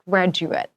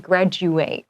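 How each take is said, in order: First: It is pronounced as the noun form. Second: It is pronounced as the verb form. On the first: It names a person who finished school. "now it's a noun, so it's graduate" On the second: It names the action of finishing school. "if it's a verb, we say graduate"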